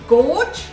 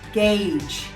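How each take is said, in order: First: The vowel sounds like 'or' in 'gorge'. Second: The vowel sounds like 'ay' in 'gage'. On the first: The speaker calls it wrong. "that was incorrect" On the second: The speaker calls it right. "The correct pronunciation for this word is gauge"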